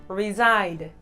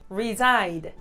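The two takes are said the same way.

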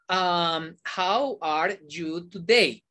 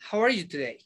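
First: Each word is said separately, without linking. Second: The words run together, linked into one unit. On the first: The speaker calls it wrong. "Yo no digo" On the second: The speaker calls it right. "Yo digo, ... La uno toda"

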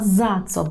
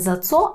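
First: The stress falls on the word za. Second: The stress falls on the word co. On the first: The speaker calls it right. "бо наголошуємо перший склад" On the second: The speaker calls it wrong. "Не зацо"

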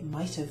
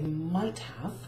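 First: The word 'have' is reduced to a weak sound. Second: The word 'have' is said fully and carefully. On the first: The speaker calls it right. "we would say might have and should have in general speech" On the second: The speaker calls it wrong. "we don't actually say might have"

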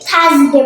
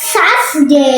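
First: It begins with a hard TH-like sound. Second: It begins with a soft S-like sound. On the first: The speaker calls it wrong. "এটাকে আপনারা অনেকেই থার্সডে বলে" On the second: The speaker calls it right. "এটা হবে সাসডে"

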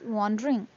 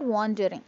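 First: One middle syllable is dropped in speech. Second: Every written syllable is pronounced separately. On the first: The speaker calls it right. "We won't pronounce all the syllables that are in the word" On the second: The speaker calls it wrong. "it's not wandering"

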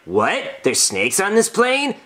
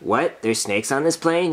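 First: It sounds alarmed and convincing. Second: It sounds flat and unconvincing.

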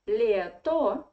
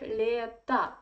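First: The final vowel sounds like o. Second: The final vowel sounds like a. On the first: "why do you write лето?" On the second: "should pronounce it like лето"

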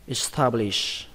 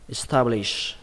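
The two takes are said the same way.

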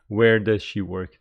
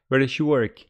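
First: Each word is said fully and separately. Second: The words are reduced and run together. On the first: The speaker calls it wrong. "they don't say" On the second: The speaker calls it right. "They say"

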